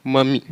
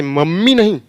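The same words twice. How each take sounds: First: "मम्मी" with one short m; "मम्मी" the right way, single m. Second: "मम्मी" with a held double m; "मम्मी" said wrongly, double m. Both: Shown as a demonstration.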